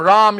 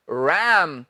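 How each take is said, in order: First: राम with a long open aa; wrong Hindi take. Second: रैम with a flat short a like cat; correct English ram. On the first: Teacher showing students the wrong reading: राम with a long aa. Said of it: "इसे हम राम नहीं कहते।". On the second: Teacher giving students the correct word: रैम with a flat a. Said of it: "क्या कहते हैं?". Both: Shown as a demonstration.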